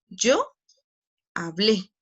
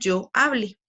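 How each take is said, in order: First: The stress falls on the verb's last syllable. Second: The stress falls on the verb's second-to-last syllable. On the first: It is past tense. "suena fuerte en la última sílaba" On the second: It is not past tense. "Si yo no lo tildo"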